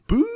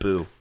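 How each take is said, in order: First: It sounds like a spooky ghost boo. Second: It sounds like a disapproving thumbs-down boo.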